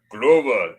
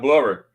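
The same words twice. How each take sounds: First: "Glover" with a long oh, as in "Gloh-vah"; German-accented name. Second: Said in the usual way. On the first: Shown as a demonstration. Passenger shows how ticket lady says "Glover", Gloh-vah. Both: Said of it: "Not Glover".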